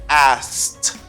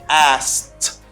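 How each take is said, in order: No difference in how they are said.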